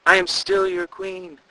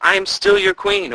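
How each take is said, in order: First: Very high, slow call fading softer; fading away. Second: Very high, loud spectral call; ghostly call. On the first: The queen's ghost fading out, slow, dying away. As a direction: let the voice drift away to nothing. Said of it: "the voice grew softer and softer". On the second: The vanished queen calling to guards, ghostly cry. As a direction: cry out from beyond. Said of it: "a woman's voice called out". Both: A narrator's reading.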